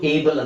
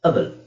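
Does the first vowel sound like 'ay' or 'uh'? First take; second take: ay; uh. First: The first vowel sounds like 'ay'. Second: The first vowel sounds like 'uh'. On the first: The speaker calls it wrong. "ದೊಡ್ಡ ಪದದಲ್ಲಿ ಇದು ಏಬಲ್ ಅಂತ ಬರಲ್ಲ" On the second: The speaker calls it right. "ದೊಡ್ಡ ಪದದಲ್ಲಿ ಅಬಲ್"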